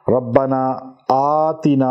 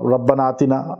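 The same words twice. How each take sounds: First: The first vowel of aatina is held long. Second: The first vowel of aatina is cut short. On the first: The speaker calls it right. "आ अलिफ को लंबा करना है ना" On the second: The speaker calls it wrong. "ये गलत हो जाएगा"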